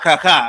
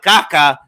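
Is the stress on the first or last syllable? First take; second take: last; first. First: The stress is on the last syllable. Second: The stress is on the first syllable. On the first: The speaker calls it right. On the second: The speaker calls it wrong.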